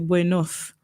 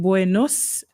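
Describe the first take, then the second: First: The final consonant is a th sound. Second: The final consonant is an s sound. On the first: This is how people from Spain say it. "in Spain they pronounce it like T H" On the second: This is how Latin Americans say it. "they pronounce their S like S"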